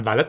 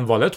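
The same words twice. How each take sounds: First: ولت with a short a in the first syllable; mispronounced ولت. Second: والت with a long open aa in the first syllable; corrected pronunciation والت. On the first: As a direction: say ولت with a short first vowel, not a long aa. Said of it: "من ولت تلفظ کردم". (تلفظ ولت با فتحهٔ کوتاه روی واو) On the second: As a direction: say والت with a drawn-open first vowel, not a short a. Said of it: "آدما گفتن والت بوده". (تلفظ والت با «آ»ی کشیده) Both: Shown as a demonstration.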